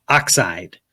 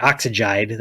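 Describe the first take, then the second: First: "oxide" as two syllables, "ox-ide"; "oxide" with no middle syllable. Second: "oxygen" turned into "ox-i-jide"; "oxygen" ending in "-jide"; made-up word oxygide. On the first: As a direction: say "oxide" short, just "ox" and "ide". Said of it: "get it to two syllables". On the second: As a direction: say "oxygen" with an -ide ending, three syllables. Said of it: "That sounds weird". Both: Shown as a demonstration.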